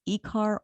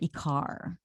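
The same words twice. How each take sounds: First: The stress is on the first syllable. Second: The stress is on the second syllable. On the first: "where's the accent on the I" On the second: "or the A?"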